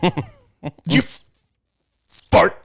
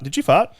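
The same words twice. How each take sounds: First: It is said in an American accent. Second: It is said in an Australian accent.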